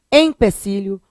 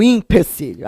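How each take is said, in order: First: First "empecilho" with a clear EM; começando com E. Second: "empecilho" as "impecilho"; começando com I. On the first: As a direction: open "empecilho" on EM. ("empecilho" com E nasal no início) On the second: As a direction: open "empecilho" on IM. ("empecilho" com I no início: "impecilho") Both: Shown as a demonstration. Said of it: "empecilho ou empecilho?".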